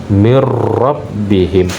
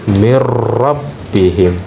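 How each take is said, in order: No difference in how they are said.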